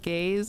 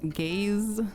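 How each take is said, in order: First: The word ends with a softer s-like sound. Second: The word ends with a clear buzzing z sound. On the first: The speaker calls it wrong. "I also heard gaze instead of" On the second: The speaker calls it right. "I think there's more of a z sound"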